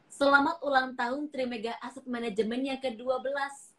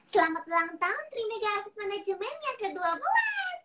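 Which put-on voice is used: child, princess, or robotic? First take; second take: robotic; child. First: It is said in a flat computer-like voice. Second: It is said in a small child's voice. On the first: "Versi Google" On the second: "Versi pertama. Baby Lala"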